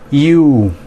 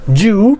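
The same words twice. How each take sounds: First: It begins with a Y sound, like letter U. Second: It begins with a J sound instead. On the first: The speaker calls it right. "Así como la letra U en inglés" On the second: The speaker calls it wrong. "ustedes estarán diciendo una palabra con J"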